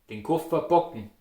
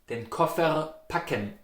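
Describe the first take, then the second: First: Packen softened to "bocken"; Austrian pronunciation. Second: Packen with hard P and clear A; hard consonants. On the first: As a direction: den Koffer packen the Austrian way, B for P. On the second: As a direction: den Koffer packen in Standard German. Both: Shown as a demonstration. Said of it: "You can hear between packen and bocken".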